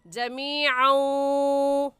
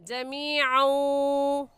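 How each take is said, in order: First: The final n sound is merged and nasalized. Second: The final n sound is merged and nasalized.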